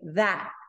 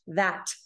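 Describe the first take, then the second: First: The final T is held back without release. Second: The final T is released with a puff of air. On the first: "We don't release the T. We say that" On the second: "Americans don't pronounce it like the British"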